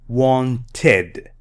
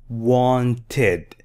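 Both takes have the same delivery.

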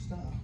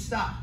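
First: The word is said quietly and weakly. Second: The word is said loudly and firmly. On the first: The speaker sounds unsure. The speaker calls it wrong. "Compared to" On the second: The speaker is confident and means it. The speaker calls it right. "you have to make sure you project your voice and you tell them certainly to"

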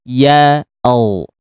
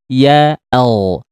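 Both takes have the same delivery.

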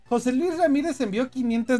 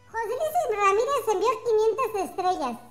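First: It is said in his normal voice. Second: It is said in a squeaky squirrel voice.

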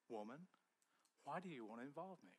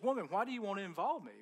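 First: It is said in a gentle, kind tone. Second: It is said in a harsh, disrespectful tone.

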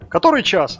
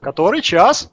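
First: The question has ordinary stress on one word. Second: The question puts stress on every word. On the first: "не так, как там у нас" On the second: "у них акцент на каждое слово идет"

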